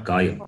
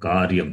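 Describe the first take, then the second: First: No r sound comes before the y. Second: An r sound comes before the y. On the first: The speaker calls it wrong. "not kayam" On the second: The speaker calls it right. "Repa is there and dot is there. So, karyam"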